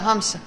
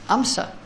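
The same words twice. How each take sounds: First: Hamsa said with a clear breathy h at the start; now say it right: Hamsa, h sounded; corrected name with h. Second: Amsa said with no h sound at the start; misheard name, no h. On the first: Teacher correcting himself after mishearing the student, h sounded. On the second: Teacher repeating the student's answer as he misheard it, without the h. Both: Retold or imitated. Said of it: "I couldn't get your accent".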